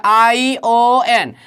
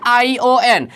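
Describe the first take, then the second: First: Each letter drawn out slowly, ION spelled as आई ओ एन; slow spelling. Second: Said in the usual way. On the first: Shown as a demonstration. Teacher spelling ION slowly for students. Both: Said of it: "T के बाद क्या है?".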